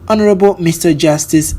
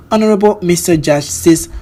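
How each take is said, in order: Both takes have the same delivery.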